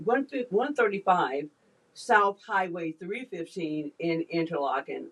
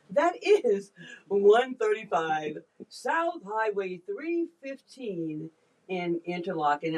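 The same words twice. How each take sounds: First: Said in the usual way. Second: Slow, drawn-out radio announcer voice. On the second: Shown as a demonstration. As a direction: read the address like a DJ on air. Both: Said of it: "I can't help but do the radio voice".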